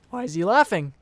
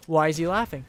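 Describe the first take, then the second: First: Voice crack. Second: Said in the usual way. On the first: Retold or imitated. Confused teen retelling dad's reaction, voice cracking. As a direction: voice cracks on "laughing?" mid-question. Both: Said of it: "That was a nice voice crack as well".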